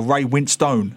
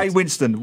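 First: "Winstone" said slowly, ending in a full "stone"; spelling pronunciation. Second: Said in the usual way. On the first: Shown as a demonstration. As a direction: say "Winstone" as spelt, rhyming its end with "own". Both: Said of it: "how his name is spelt".

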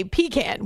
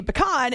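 First: 'pecan' said as PEE-can; long ee, then flat 'can' in 'pecan'. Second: 'pecan' said as puh-KAHN. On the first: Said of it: "and some of us say pecan". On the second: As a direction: open 'ah' at the end of 'pecan'. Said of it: "some of us say pecan". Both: Shown as a demonstration.

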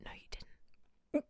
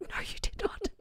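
First: Slow, breathless whisper; hushed whisper; whispered denial. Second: Whispered with not stressed; not hit in the whisper; whispered denial. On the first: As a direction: hiss the denial back at them. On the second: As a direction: lean hard on not. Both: Retold or imitated. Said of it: "And I was like".

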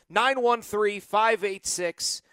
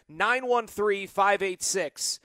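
The two takes are said the same way.

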